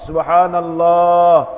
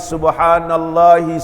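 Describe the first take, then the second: First: It ends on '-lah' with no final vowel. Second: It ends on '-lahi' with an added final vowel. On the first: The speaker calls it right. "Nabi sallallahu alaihi wasallam menyebut subhanallah" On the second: The speaker calls it wrong. "tak pernah sebut subhanallahi"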